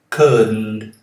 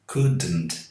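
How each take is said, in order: First: The D is held silent, going straight into N. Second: The D is released with an extra vowel sound. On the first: The speaker calls it right. "deixe a língua no céu da boca quando fala o D ... não tem nenhum som aqui depois de D" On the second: The speaker calls it wrong. "Um vício muito comum entre os brasileiros. Eles falam couldn't"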